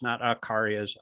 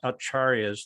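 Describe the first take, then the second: First: The middle consonant is a k sound. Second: The middle consonant is a ch sound. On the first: The speaker calls it wrong. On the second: The speaker calls it right. "C is always pronounced C H"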